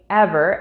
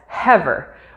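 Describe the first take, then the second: First: The word begins without an h sound. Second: The word begins with an added h sound.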